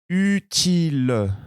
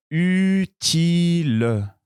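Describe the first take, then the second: First: Utile stretched slowly, high; slow model word. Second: Utile pulled out very slowly and high; very slow model word. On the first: Teacher modelling dictation, slow high utile. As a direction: draw out utile for listeners. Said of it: "Écoutez bien". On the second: Teacher dictating first word, very slow. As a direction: stretch utile even longer. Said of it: "Je commence le premier mot". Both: Shown as a demonstration.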